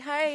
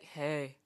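First: The greeting sounds cheerful and excited. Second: The greeting sounds flat and sad.

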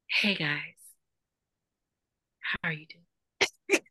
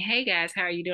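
First: The phrase is broken by long pauses. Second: The phrase is said without long pauses. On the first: "Long pauses, like" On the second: "instead of saying"

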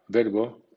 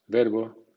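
Both takes have the same delivery.

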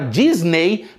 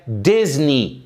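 First: The final vowel sounds like 'ay'. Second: The final vowel sounds like 'ee'. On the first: The speaker calls it wrong. "que a gente tem mania de falar Disney" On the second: The speaker calls it right. "mas é Disney"

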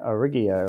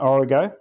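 First: The word ends with an extra 'ee-o' sound. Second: The word ends with a plain '-go' sound. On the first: The speaker calls it wrong. "Origio or something" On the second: The speaker calls it right. "I have to correct your pronunciation"

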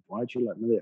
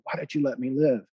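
First: It is said plainly, with little expression. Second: It is said with strong, emotional expression.

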